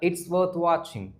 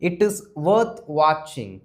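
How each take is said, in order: First: 'It is' is shortened to 'it's'. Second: 'It is' is said as two full words. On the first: "அத அப்படியே கொஞ்சம் ஸ்டைலா" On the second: "இட் இஸ்ன்னு சொல்லாம"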